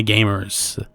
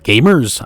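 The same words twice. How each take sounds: First: Gamers with an American r, ending in a rolled-on "er"; Americanish gamers. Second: Gamers in a New Zealand accent, r dropped at the end; firm New Zealand Gamers. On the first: Real, not acted. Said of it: "I said gamers, kind of Americanish". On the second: Shown as a demonstration. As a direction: correct it to a Kiwi Gamers. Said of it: "Have your New Zealand accent".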